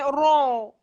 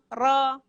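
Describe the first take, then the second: First: The vowel is said with rounded, pouted lips. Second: The vowel is said with unrounded lips. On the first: The speaker calls it wrong. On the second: The speaker calls it right.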